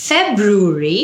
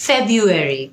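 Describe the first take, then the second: First: "ফেব্রুয়ারি" as FEB-roo-ree; British pronunciation. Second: "ফেব্রুয়ারি" as FEB-yoo-eri; American pronunciation. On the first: Teacher asks learners which is right, "ফেব্রুয়ারি" as British FEB-roo-ree. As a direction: keep the r after b in "ফেব্রুয়ারি". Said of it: "British". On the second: Teacher gives learners the alternative, "ফেব্রুয়ারি" as American FEB-yoo-eri. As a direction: drop the first r of "ফেব্রুয়ারি". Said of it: "American উচ্চারণ". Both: Shown as a demonstration.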